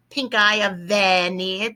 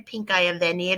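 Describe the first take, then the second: First: Eye lifted and drawn out; stress on eye. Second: Said in the usual way. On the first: Shown as a demonstration. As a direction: point out the pink eye of venir. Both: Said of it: "Here's a pink eye for you".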